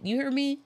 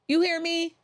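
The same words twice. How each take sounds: First: Said in the usual way. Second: Calling out. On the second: Acted. Repeated call, much higher and louder.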